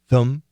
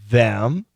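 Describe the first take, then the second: First: Said quickly with a reduced schwa vowel. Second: Said in full with a clear th and vowel. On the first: "We can make it a schwa and say them" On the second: "of course, them, perfect pronunciation"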